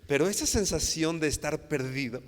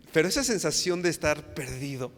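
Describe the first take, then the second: First: Said in the usual way. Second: Laughing through the line, a bit louder. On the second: Real, not acted. Preacher laughs with the recalling congregation, laughing. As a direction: chuckle as you say it. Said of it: "ya se están recordando ahí".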